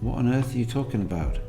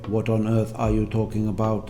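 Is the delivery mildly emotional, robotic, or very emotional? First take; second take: mildly emotional; robotic. First: It is said fairly flatly, with slight feeling. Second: It is said mechanically, with no feeling. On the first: "fairly flat. There's a bit of emotion being invested in that" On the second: "the robotic way"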